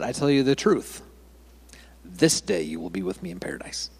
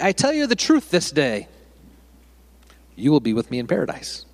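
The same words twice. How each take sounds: First: The pause comes after 'the truth'. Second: The pause comes after 'this day'.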